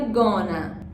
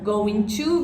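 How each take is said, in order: First: The words blend into one reduced form. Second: Both words are said in full.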